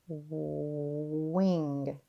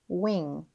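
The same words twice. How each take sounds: First: The word is stretched slowly, sound by sound. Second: The word is said quickly as one unit. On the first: "tap and stretch" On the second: "Say it fast"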